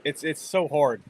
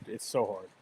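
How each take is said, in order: First: Said in the usual way. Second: Quiet, resigned echo of the line; softer repeat. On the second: Real, not acted. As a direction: lower and softer, fading out. Repeats the phrase, second time softer.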